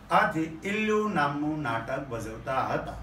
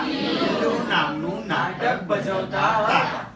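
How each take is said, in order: First: Said in the usual way. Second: Slow with ઇલ્લુ drawn out and laughing; playful slow call-and-response; stress on ઇલ્લુ. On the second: Shown as a demonstration. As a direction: hit ઇલ્લુ slowly with a laugh. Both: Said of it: "કયું નાટક ભજવતા હતા?".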